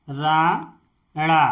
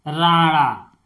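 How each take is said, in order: First: Rana drawn out very slowly, each sound clear; Rana stretched syllable by syllable; slow spelled-out word. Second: Said in the usual way. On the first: Shown as a demonstration. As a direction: say Rana slowly for a child to copy. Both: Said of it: "जैसे इस ड़, इसको पढ़ते हैं ड़".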